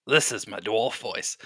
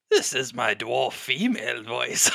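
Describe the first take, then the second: First: Lightly put-on dwarf voice. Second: Lightly put-on female dwarf, breaking into laughter. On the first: Game master tests a voice for the dwarf poet, light dwarf voice. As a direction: try out a hint of a dwarf voice. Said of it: "I gotta do a dwarf voice". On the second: Game master refines the dwarf poet's voice, light female dwarf voice. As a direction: try a hint of a female dwarf, laugh after. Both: Shown as a demonstration.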